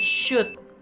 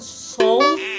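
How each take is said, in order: First: The L sound is silent in the word. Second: The L sound is pronounced in the word. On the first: The speaker calls it right. "Jadi L-nya hilang ya" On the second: The speaker calls it wrong. "bukan sold"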